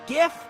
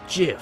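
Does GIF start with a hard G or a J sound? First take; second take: hard G; J sound. First: It starts with a hard G sound. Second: It starts with a soft J sound. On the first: The speaker calls it wrong. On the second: The speaker calls it right.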